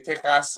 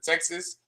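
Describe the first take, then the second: First: It is said the Spanish, Mexican way. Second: It is said the usual English way.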